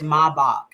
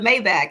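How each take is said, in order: First: It is pronounced the German way. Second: It is pronounced the anglicized, non-German way. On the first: The speaker calls it right. "it's German, it's pronounced Maybach" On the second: The speaker calls it wrong. "you said it wrong"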